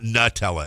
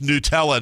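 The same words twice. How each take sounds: First: The first syllable sounds like 'nut'. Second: The first syllable does not sound like 'nut'. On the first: This is how the speaker says it. "you have the nut, and then you have the Ella" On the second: This is how the people correcting others say it. "say it's Nutella"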